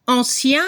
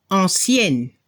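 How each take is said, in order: First: ANCIEN ending on a nasal vowel, no n; masculine French ancien. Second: ANCIENNE closed on a clear n; feminine French ancienne. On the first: French teacher giving the masculine example, ANCIEN ending nasal. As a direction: leave the final n of ANCIEN silent, nasal ending. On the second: French teacher giving the feminine example, ANCIENNE with audible n. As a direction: sound the final n of ANCIENNE. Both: Shown as a demonstration. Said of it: "Se escucha la última consonante".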